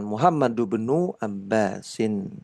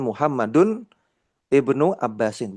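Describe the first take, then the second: First: The i of ibnu is dropped and linked. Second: The i of ibnu is pronounced separately. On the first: The connecting hamzah is correctly left silent. The speaker calls it right. "maka yang benar diwasolkan" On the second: The connecting hamzah is wrongly changed into a full one. The speaker calls it wrong. "bukan Muhammadun ibnu Abbasin, bukan"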